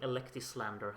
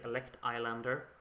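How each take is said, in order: First: The name is run together as one word. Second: The name is split into two separate words. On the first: The speaker calls it wrong. "has such a nice ring to it" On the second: The speaker calls it right. "I should say Elect Islander"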